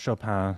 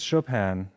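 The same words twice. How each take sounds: First: The final N sound is dropped. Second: The final N sound is pronounced.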